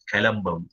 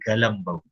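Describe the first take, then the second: First: The name begins with a K sound. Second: The name begins with a G sound.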